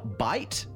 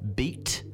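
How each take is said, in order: First: The vowel is a gliding 'eye' sound. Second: The vowel is a long 'ee' sound. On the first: This is the modern pronunciation. "what is now bite" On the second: This is the older pronunciation before the vowels changed. "would have been beat"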